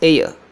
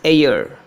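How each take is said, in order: First: The word ends without any R sound. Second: The final R sound is clearly pronounced. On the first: "According to the British English, we say this air" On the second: "In American English, they produce the final R"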